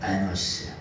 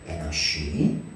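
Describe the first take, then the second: First: The name ends with an s sound. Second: The name ends with a shi sound. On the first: The speaker calls it wrong. "이 에노스라고 하는 말은" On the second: The speaker calls it right. "정확하게 말하면은 에노시라고 하는 발음이"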